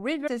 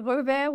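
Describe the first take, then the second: First: The name is pronounced with English sounds. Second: The name is pronounced with French sounds. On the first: "ou river si tu veux euh, l'angliciser" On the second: "tu peux prononcer revers"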